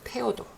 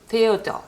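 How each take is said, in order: First: The name starts with a plain t sound. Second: The name starts with an English-style th sound. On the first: The speaker calls it right. "독일어는 그냥 깔끔하게 테오도" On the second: The speaker calls it wrong. "요거도 테오도 이러지 않습니다. 영어의 그 발음은 너무 어려운 발음이에요"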